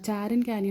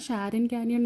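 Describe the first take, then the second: First: The name begins with a 'ch' sound. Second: The name begins with a 'sh' sound. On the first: "രണ്ട് രീതിയിൽ നമുക്ക് pronounce ചെയ്യാം" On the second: "രണ്ട് രീതിയിൽ നമുക്ക് pronounce ചെയ്യാം"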